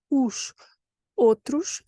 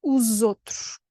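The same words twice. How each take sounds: First: OS ending in sh, pause, then OUTROS; "os" as "oosh", kept apart from "outros"; careful word-by-word "os ... outros"; two separate words. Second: "os outros" run together as "oozotroosh"; joined-up "os outros", s voiced to z; linked with z. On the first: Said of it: "even if it's two different words". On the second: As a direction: link OS to OUTROS with a z sound. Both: Shown as a demonstration.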